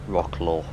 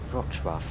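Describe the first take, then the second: First: The name is said in an anglicized way. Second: The name is said in its native way. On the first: The speaker calls it wrong. "pronounce it wrong" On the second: The speaker calls it right. "it's actually Wrocław"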